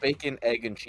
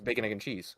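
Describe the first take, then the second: First: The words are separated by small pauses. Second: The words run together as one word. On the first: The speaker calls it wrong. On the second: The speaker calls it right. "it's actually um is one word"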